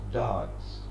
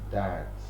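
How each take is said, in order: First: It is said in a British accent. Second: It is said in an American accent. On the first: "In Britain, it's pronounced dance" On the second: "In America, it is pronounced dance"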